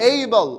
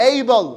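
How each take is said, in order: Both takes have the same delivery.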